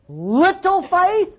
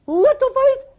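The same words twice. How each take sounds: First: "little faith?" drawn out slowly, climbing high; "little faith?" stretched long and rising in disbelief; disbelieving question. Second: "Little faith?" cried out very high; "Little faith?" flung up to a high exclaiming cry; near-shouted disbelief. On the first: Incredulous repeat of Jesus' rebuke. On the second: Louder incredulous repeat. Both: Real, not acted.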